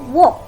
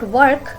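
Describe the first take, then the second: First: The R sound is silent. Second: The R sound is pronounced. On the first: The speaker calls it right. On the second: The speaker calls it wrong.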